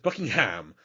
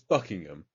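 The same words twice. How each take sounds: First: The middle 'h' sound is clearly pronounced. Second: The middle 'h' sound is left silent. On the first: The speaker calls it wrong. "Everyone pronounces the H in your country" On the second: The speaker calls it right. "It's Buckingham"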